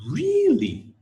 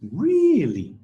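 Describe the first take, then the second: First: Really? leaping high then falling; rise and fall. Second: Really? high and louder, falling at the end; surprised really. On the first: Teacher modelling surprised rise fall. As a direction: swoop up then drop on Really?. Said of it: "Rise and fall". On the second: Teacher modelling surprise intonation. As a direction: sound genuinely surprised on Really?. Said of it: "Uh, surprise". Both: Shown as a demonstration.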